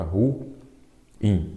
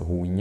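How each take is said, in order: First: Ruim split as "ru... im", long gap between; syllable by syllable. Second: Said in the usual way. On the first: Shown as a demonstration. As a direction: break ruim into ru, pause, im. (ruim separado devagar em duas sílabas) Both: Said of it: "pode ser uma outra palavra".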